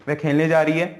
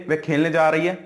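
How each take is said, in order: No difference in how they are said.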